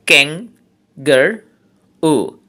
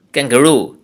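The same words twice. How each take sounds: First: kangaroo slowly split into three syllables with pauses. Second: Said in the usual way. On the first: Shown as a demonstration. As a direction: say kangaroo in three slow, separate beats. (Kangaroo তিন সিলেবলে থেমে থেমে) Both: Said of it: "trisyllabic words".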